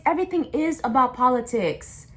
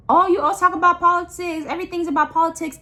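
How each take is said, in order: First: Said in the usual way. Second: Mocking whiny voice. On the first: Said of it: "restating the quote in own voice". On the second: Parroting people who whine that everything's political, in a high sneering mock voice. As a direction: mimic someone rolling their eyes at politics.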